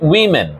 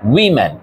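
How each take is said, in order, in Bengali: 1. এটি 'wi' ধ্বনি দিয়ে শুরু, যেমন wimmin। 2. এটি 'wi' ধ্বনি দিয়ে শুরু, যেমন wimmin।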